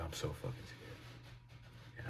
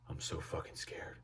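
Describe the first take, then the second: First: Slow, barely-there frightened whisper; scared whisper. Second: Hushed, voiceless confession of fear; scared whisper. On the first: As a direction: drag it out slowly in a tiny voiceless hush. Zoned-out friend repeats, terrified. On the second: Zoned-out friend answering the teller, scared whisper. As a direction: whisper it like you are frozen with fright. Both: Retold or imitated.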